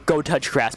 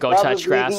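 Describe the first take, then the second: First: It is said firmly, with full conviction. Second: It is said hesitantly, with some doubt. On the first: The suggestion is meant definitively. "now this is for sure" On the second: The suggestion is only tentative. "You can hear the hesitation in my voice"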